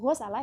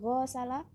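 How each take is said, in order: First: The first vowel is kept short. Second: The first vowel is drawn out long. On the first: The speaker calls it right. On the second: The speaker calls it wrong.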